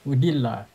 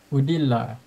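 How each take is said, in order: The two takes are said the same way.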